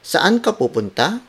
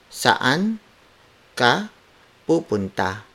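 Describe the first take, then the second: First: It is said with question intonation. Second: It is said without question intonation.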